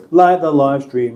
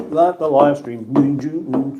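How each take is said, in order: First: Said in the usual way. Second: Very slow, stretched-out words; drawn-out plea. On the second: Acted. Streamer nagging viewers to like, slowed right down. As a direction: drag each word out like a chant.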